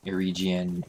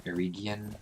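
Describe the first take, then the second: First: Erigian with the g as a j sound; soft g. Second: Erigian with the g as in "get"; hard g. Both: Shown as a demonstration. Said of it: "which is the correct pronunciation".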